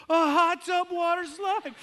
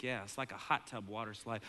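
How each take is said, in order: First: Put-on very high, loud, slow delighted kid yell; thrilled kid shout. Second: Said in the usual way. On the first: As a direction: shout it back in pure delight. Kid echoes dad excitedly.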